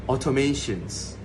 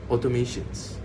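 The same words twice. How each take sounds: The two takes are said the same way.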